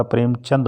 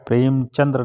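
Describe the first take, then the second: First: प्रेमचंद ending in a plain द; correct form. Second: प्रेमचंद्र ending in द्र; wrong form. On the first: Teacher corrects students to प्रेमचंद. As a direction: say the right name प्रेमचंद with no र. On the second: Teacher marks प्रेमचंद्र as the wrong spelling. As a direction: read the wrong name प्रेमचंद्र with the final र. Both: Shown as a demonstration. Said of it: "प्रेमचंद्र नहीं होता".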